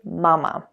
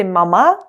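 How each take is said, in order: First: "mama" with stress on the first syllable, falling; correct stress. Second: "mama" with stress on the last syllable, rising; wrong stress. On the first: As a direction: lean on the first "ma" of "mama", relax the second. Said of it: "you say mama". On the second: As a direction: punch the second syllable of "mama". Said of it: "you don't say mama". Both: Shown as a demonstration.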